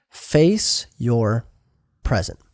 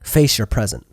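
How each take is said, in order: First: "Face ... your ... present", spaced out with pauses; word-by-word emphasis. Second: Said in the usual way. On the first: Shown as a demonstration. Preacher repeats the second point to the congregation, word by word. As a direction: separate each word of "Face your present", dropping low on "present".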